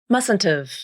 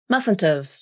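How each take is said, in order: First: The second T is pronounced as a clear T. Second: The second T is pronounced as a clear T.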